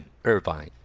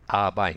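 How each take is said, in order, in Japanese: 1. 英語の音で言います。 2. 日本語のカタカナの音で言います。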